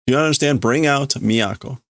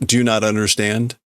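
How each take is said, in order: First: Mild yell. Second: Said in the usual way. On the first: Shown as a demonstration. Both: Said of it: "This is likely this guy yelling this".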